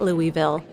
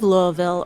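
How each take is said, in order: First: The city name is said the outsider way. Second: The city name is said the local way. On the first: The speaker is not from the city. "someone who says it Louisville" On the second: The speaker is from the city. "a native of Louisville"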